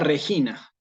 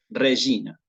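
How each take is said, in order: First: The g is said like a Spanish name. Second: The g is soft, in ecclesiastical style. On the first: "nunca Regina" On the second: "en el latín eclesiástico"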